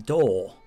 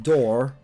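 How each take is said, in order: First: The final R sound is dropped. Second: The final R sound is pronounced. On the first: "they do say door" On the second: "as in the R is there"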